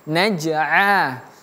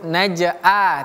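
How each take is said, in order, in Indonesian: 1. Vokalnya dimulai dengan bunyi ain yang bernada tenggorokan. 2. Vokalnya adalah a terbuka yang polos. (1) "tapi naj'a" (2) "bukan huruf naj'a"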